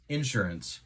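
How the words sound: It is said in a Central Illinois accent.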